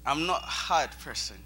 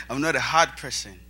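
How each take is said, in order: First: Said in the usual way. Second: Hard said louder and firmer; firm restatement. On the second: Real, not acted. Speaker correcting himself, firm on hard. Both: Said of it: "Oh, sorry".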